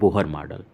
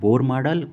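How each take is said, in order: First: The name is said as two syllables, 'bo-har'. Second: The name is said as one syllable, 'bor'. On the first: "कोई बोलता है बोहर model" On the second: "कोई कोई प्रोनाउंसिएट करता है बोर model"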